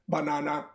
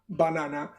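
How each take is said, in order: The two takes are said the same way.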